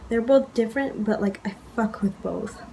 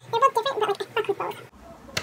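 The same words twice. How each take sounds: First: Said in the usual way. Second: A much higher, playful echo of the line; high mock voice fading quietly. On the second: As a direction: say it again in a high, fluttery voice. Repeated the line in another voice.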